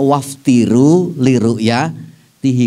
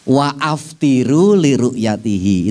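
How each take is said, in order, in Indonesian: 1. Wa langsung tersambung ke aftiru tanpa jeda. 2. Hamzah memisahkan wa dari aftiru. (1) "Jangan dibaca waftiru liru'yatihi" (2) "Itu kan model hamzah kotok"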